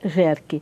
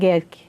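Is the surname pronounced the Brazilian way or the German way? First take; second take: Brazilian; German. First: The name is said the local Brazilian way. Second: The name is said the original German way. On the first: This is how people locally say the name. "aqui em Jacareí se fala Jerque" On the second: This is the name's original pronunciation. "se pronuncia Gerke, porque é alemão"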